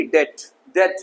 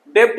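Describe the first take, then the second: First: डेट with silent B; correct pronunciation. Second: डेप्ट with the silent consonant sounded; wrong pronunciation. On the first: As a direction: leave the B out, डेट. (सही उच्चारण, डेट में B मूक) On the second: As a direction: sound a stop before ट in डेप्ट. (गलत उच्चारण, डेप्ट में मूक अक्षर बोलकर) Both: Shown as a demonstration. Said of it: "डेप्ट नहीं".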